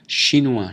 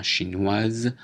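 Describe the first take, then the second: First: Chinois ending in wa, silent s; masculine pronunciation. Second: Chinoise ending in waz; feminine pronunciation. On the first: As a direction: say chinois without the final consonant. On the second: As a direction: sound the final z in chinoise. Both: Shown as a demonstration. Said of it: "prononciation différente".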